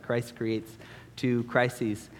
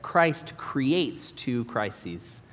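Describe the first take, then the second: First: "Christ creates two crises" very slow, "two" pushed hardest with a falling end; deliberate restatement. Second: "Christ creates two crises" spaced out word by word, each hard C leaned on; slow alliterative emphasis. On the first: Preacher restating his crafty sermon point, slow and weighty. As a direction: land the alliteration one last time. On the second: Preacher announcing his first point to the congregation, slow and stressed. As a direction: savour the alliteration, slow and deliberate. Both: Shown as a demonstration. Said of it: "I enjoyed that, uh, alliteration".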